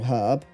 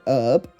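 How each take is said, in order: First: The h at the start is sounded. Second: The h at the start is silent.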